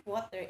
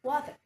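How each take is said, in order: First: WATER ending in "ah", no R; British pronunciation. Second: WATER with a clear R at the end; American pronunciation. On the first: Teacher models British WATER for learners, r dropped. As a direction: say "water" as "waw-tah", British style. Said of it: "it is pronounced as ah". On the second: Teacher models American WATER for learners, rhotic r. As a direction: say "water" the American way, sounding the final r. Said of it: "In American English, it is pronounced as". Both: Shown as a demonstration.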